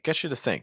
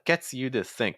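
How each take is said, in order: First: The words are linked and reduced together. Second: The words are said separately without linking. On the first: The speaker calls it right. "I do like your linking" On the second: The speaker calls it wrong. "it's not gets you to think, because that's kind of hard to say"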